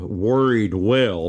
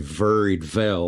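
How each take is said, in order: First: The word 'well' begins with a w sound. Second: The word 'well' begins with a v sound.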